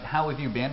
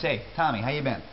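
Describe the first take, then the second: First: Said in the usual way. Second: Quick how you been, words run together; clipped New York greeting. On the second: Shown as a demonstration. Teacher gives the New York form of how have you been, clipped.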